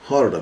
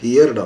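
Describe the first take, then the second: First: The vowel sounds like the one in 'her'. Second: The vowel sounds like the one in 'here'. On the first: The speaker calls it right. "ಹರ್ಡ್ ಅನ್ಬೇಕು" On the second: The speaker calls it wrong. "ಹಿಯರ್ಡ್ ಅನ್ನಬಾರ್ದು"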